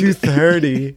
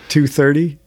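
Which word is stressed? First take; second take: tooth; neither. First: The first word, tooth, is strongly emphasized. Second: The words are said plainly, without special stress.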